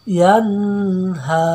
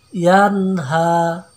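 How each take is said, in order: No difference in how they are said.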